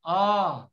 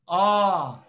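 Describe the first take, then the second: First: The vowel is held long. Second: The same.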